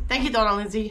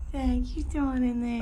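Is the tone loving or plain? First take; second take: plain; loving. First: It is said in a plain, quick tone. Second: It is said in an exaggerated, loving tone.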